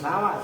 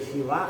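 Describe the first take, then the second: First: The first vowel is a, rhyming with sama. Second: The first vowel is i, rhyming with bina. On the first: "boleh sawa seperti sama" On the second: "Boleh siwa seperti bina"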